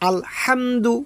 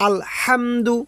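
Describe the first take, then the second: No difference in how they are said.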